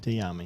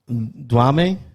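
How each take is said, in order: First: The name begins with a 'dye' sound. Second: The name begins with a 'dwah' sound. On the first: The speaker calls it right. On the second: The speaker calls it wrong.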